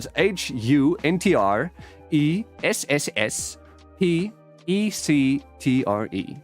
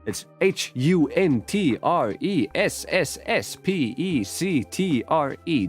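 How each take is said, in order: First: The letters are spelled out slowly. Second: The letters are spelled at a normal, quicker pace.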